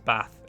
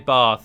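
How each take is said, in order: First: Bath is said in a northern accent. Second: Bath is said in a non-northern accent.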